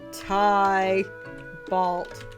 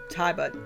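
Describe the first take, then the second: First: The name is said with an L sound. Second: The name is said without an L sound. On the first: The speaker calls it wrong. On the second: The speaker calls it right.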